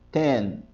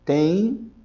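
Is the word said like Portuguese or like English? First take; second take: English; Portuguese. First: It is said with an English ten sound. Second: It is said like the Portuguese word tem. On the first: The speaker calls it right. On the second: The speaker calls it wrong. "Não é tem"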